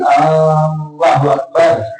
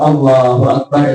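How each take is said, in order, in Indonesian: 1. Huruf vokal pertama pada Allahu dibaca panjang. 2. Huruf vokal pertama pada Allahu pendek. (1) "kalau dipanjangkan hamzahnya jadi Allahu Akbar" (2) "Kalau Allahu Akbar itu kan Allah Maha Besar"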